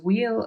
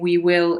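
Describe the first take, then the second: First: The two words merge into one contracted syllable. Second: Both words are said fully and separately. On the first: "it's reduced to we'll" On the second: "instead of saying we will"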